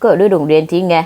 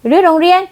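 First: Said in the usual way. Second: High rising disbelieving echo; stunned "รื้อโรงเรียน?" thrown back high; shocked echo. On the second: Acted. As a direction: repeat it back in sheer disbelief.

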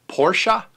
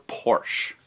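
First: Porsche as "POR-shuh"; two-syllable Porsche. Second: Porsche as "porsh", falling; one-syllable Porsche. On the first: Offering owners either way, Porsche said as "por-shuh". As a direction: rise on Porsche with an "uh" ending. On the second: Offering owners either way, Porsche said as "porsh". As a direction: close Porsche on the "sh", no vowel after. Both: Shown as a demonstration. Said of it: "either way they like".

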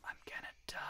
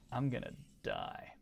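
First: Hushed whispered dread. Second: Said in the usual way. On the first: Real, not acted. Streamer to chat while losing, whispered. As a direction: breathe it out, barely voiced.

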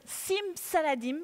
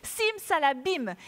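First: "Saladim" with a d, the slip; wrong magic word. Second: "Salabim" with a clear b, slowly; slow, careful "Sim Salabim"; corrected "Salabim", said slowly; corrected magic word. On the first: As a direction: says "Sim Saladim" by mistake. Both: Shown as a demonstration. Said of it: "Mais je dis n'importe quoi".

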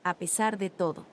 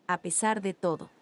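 No difference in how they are said.

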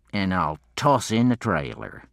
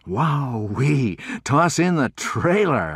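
First: Said in the usual way. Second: High, loud thrilled exclamation; gleeful shout of delight; excited cry. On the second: Acted. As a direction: cry it out, amazed at the deal. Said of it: "I cried".

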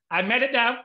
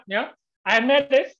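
First: Elated, pitched high and louder; triumphant. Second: Slow, high and louder, savoring it; bigger triumph. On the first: Author retells winning a second award, elated. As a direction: claim victory with glee. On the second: Author relishes being first double winner in years, slow and elated. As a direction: stretch the victory out gleefully. Retelling winning two awards. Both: Retold or imitated.

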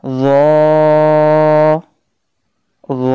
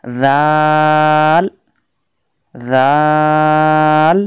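First: "র" as a thick, heavy Arabic zwa, held long; মোটা উচ্চারণ. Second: "রাল" as a thin, light Arabic dhal, very drawn out; পাতলা উচ্চারণ. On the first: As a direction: draw out a heavy, rounded "র". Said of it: "জকে মোটা উচ্চারণ করতে হবে". ("র" মোটা আওয়াজে টেনে উচ্চারণ) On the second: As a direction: hold "রাল" long with a light sound. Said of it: "রালকে পাতলা উচ্চারণ করতে হবে". ("রাল" পাতলা আওয়াজে লম্বা টেনে) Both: Shown as a demonstration.

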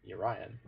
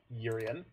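First: Urian said yuh-RYE-un, like Orion with a Y; own pronunciation. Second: Urian said YUR-ee-un, stress on first syllable; heard pronunciation. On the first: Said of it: "So I pronounce it Urian". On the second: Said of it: "I've heard it pronounced Urian". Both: Shown as a demonstration.

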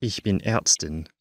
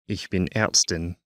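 The two takes are said the same way.

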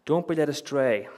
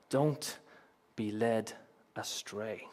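First: Louder, higher, in one push; raised, urgent preacher's warning; emphatic warning. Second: Slow, broken by pauses, falling softer; deliberate warning that sinks to quiet; solemn direct warning. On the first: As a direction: drive the warning home forcefully. Warning repeated forcefully. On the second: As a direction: leave space between the words, drop away at the end. Warning addressed to the congregation. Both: Real, not acted.

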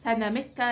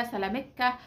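First: سنامكه said with n, sanamka; the سنامكه variant, with n in the middle. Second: سلامكه said with l, salamka, rising at the end; the سلامكه variant, with l in the middle. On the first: Showing viewers the name سنامكه with n. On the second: Host giving viewers the other name سلامكه, with l. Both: Shown as a demonstration. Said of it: "في ناس بتقولها ليها كذا فوناتكس".

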